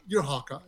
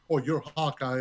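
First: It is said in a playful way. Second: It is said in a serious way.

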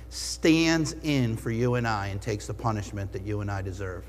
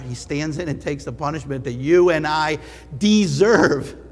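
First: It is said at normal volume. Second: It is said louder, especially the end.

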